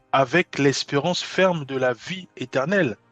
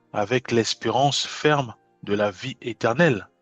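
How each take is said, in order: Both takes have the same delivery.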